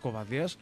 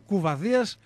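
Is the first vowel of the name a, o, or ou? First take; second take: o; ou. First: The first vowel of the name is 'o'. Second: The first vowel of the name is 'ou'. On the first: "όχι Κοβαδίας" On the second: "ούτε κουβαδίας"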